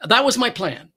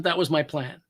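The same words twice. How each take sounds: First: High and a bit louder, pressing on was; emphatic. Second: Said in the usual way. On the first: Shown as a demonstration. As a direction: insist it was the plan, was stressed.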